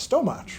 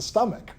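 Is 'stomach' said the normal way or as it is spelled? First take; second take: as spelled; normal. First: The word is said as it is spelled. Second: The word is said the usual way. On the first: The speaker calls it wrong. "the way it seemed it should be pronounced" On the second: The speaker calls it right. "That's the stomach, right?"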